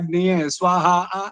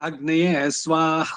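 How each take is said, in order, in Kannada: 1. ಕೊನೆಯ ಉಚ್ಚಾರಾಂಶದಲ್ಲಿ ಇಳಿಯುವ ಸ್ವರ ಇರುತ್ತದೆ. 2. ಕೊನೆಯ ಉಚ್ಚಾರಾಂಶ ಕಡಿಮೆ ಸ್ವರದಲ್ಲೇ ಉಳಿಯುತ್ತದೆ. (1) "ನೀವು ಬಿಡಿಸಿದ್ರೆ" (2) "ಸ್ವರಿತದಲ್ಲಿರೋದು ಅನುದಾತಕ್ಕೆ ಬಂದ್ಬಿಡುತ್ತೆ"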